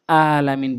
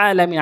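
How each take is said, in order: First: আলামিন starting on a plain long a; wrong open vowel. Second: আলামিন opening on a squeezed Arabic pharyngeal sound; correct throat ain. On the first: Teacher shows the forbidden reading, smooth plain a in আলামিন. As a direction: glide into আলামিন with no throat sound. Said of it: "বলা যাবে না". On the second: Teacher corrects learners, strong ain at the start of আলামিন. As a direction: tighten mid-throat on the first a of আলামিন. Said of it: "আইন এনে উচ্চারণ করতে হবে". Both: Shown as a demonstration.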